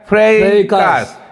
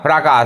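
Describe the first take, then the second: First: The first vowel is an 'ay' sound. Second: The first vowel is an open 'ah' sound. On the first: The speaker calls it right. "लेकिन यह है क्या" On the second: The speaker calls it wrong. "यदि आपको नहीं पता रहेगा तो आप इसको बोलेंगे"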